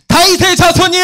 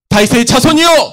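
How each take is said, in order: First: It is shouted even more loudly. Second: It is shouted loudly. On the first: "아니면 더 크게 소리 질렀을까요? 네" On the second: "지금 이 목소리와 같이 소리를 질렀을까요?"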